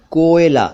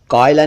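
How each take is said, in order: First: "कोयला" as "koh-ye-la", closed o; correct o vowel. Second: "कोयला" mispronounced "koy-la", open first vowel; wrong diphthong. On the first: Teacher corrects to कोयला, o sound. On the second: Teacher rejects mistaken कोयला, open diphthong. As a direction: run "कोयला" into two syllables, "kaw-ila". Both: Shown as a demonstration. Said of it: "कोयला नहीं".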